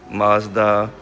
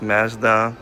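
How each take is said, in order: First: It is said with an American pronunciation. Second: It is said with a Canadian pronunciation. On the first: "in the U S you guys pronounce Mazda" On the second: "in Canada we pronounce Mazda"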